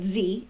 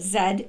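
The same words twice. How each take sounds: First: The letter is said the American way, zee. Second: The letter is said the Canadian way, zed.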